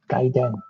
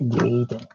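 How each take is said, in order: First: The first vowel sounds like 'eye'. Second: The first vowel sounds like 'ay'. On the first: The speaker calls it right. "we use the letters A I for like an I sound, like Gaiden" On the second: The speaker calls it wrong. "not Gaiden"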